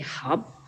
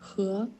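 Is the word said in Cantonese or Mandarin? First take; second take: Cantonese; Mandarin. First: It is said with a Cantonese pronunciation. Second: It is said with a Mandarin pronunciation. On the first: "in Cantonese, it will be" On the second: "in Mandarin, it will sound like"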